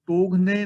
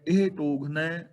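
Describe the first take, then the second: First: ਟੋਗਨੇ with a closed e ending, the wrong way; wrong pronunciation demo. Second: ਟੋਗਨੈ ending in open ai; correct pronunciation. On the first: Teacher showing students the wrong ending, ਟੋਗਨੇ. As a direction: show ਟੋਗਨੇ as the mistake. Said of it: "ਟੋਗਨੇ ਨਹੀਂ ਪੜਨਾ". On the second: Teacher giving students the right ending, ਟੋਗਨੈ. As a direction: end ਟੋਗਨੈ on the open ai sound. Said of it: "ਨੈ ਪੜਨਾ ਹੈ". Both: Shown as a demonstration.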